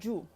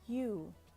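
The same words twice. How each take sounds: First: The y sound at the start is strong. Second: The y sound at the start is soft. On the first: The speaker calls it wrong. "No es un sonido fuerte, no el you" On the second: The speaker calls it right. "it's soft, just super soft and subtle"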